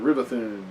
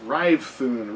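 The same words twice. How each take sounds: First: Rivethun with a short i, three beats; trial pronunciation. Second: Rivethun with "Rive" rhyming with five; trial pronunciation. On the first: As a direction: say Rivethun as RIV-uh-thoon. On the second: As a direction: say Rivethun in two beats, RYVE-thoon. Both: Shown as a demonstration. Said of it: "Be nice to have a pronunciation guide".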